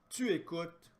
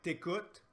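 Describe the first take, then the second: First: The word tu is said in full. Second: The word tu is shortened to a t sound.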